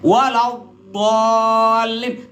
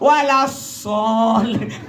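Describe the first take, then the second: First: The consonant is made with the tongue pressed firmly. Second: The consonant leaks out as a hissing lisp. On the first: "Lidah kau tekan ke gigi kau yang depan ya. Lihat, walau bolin, tekan" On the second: "ngelos, giginya ronga"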